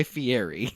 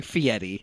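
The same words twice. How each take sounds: First: "Fieri" said as fee-AIR-ee. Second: "Fieri" said as fee-ETT-ee. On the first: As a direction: keep an R sound in the middle of "Fieri". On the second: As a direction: put a T sound in place of the R in "Fieri". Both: Shown as a demonstration. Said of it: "Can we call him Fieri to".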